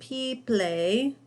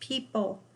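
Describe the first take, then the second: First: The ending is said like the word play. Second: The ending is a short unstressed 'pul' sound. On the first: The speaker calls it wrong. "we're not saying P-play, ... Sounds like I'm speaking in a fancy language, but that's not right" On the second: The speaker calls it right. "It's people"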